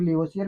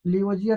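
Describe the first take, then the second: First: लियोसियर said with an s sound, lee-o-SEE-er; other pronunciation. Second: लियोजियर said with a j sound, lee-o-JEE-er; one pronunciation. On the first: Teacher showing students the other common way to say it, with an s. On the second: Teacher showing students one way to say the name, with a j. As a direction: say लियोजियर with a clear j in the middle. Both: Shown as a demonstration. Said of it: "pronunciation थोड़ा सा लोग उल्टा बोलते हैं".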